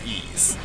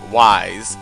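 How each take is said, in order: First: It sounds like 'ease', starting with a vowel. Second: It sounds like 'wise', starting with a w. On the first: The speaker calls it right. "it's pronounced ease" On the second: The speaker calls it wrong. "when I was a child, I pronounced it Wise"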